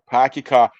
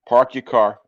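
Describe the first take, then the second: First: Boston accent, with the r sounds dropped. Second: Plain accent, with the r sounds pronounced.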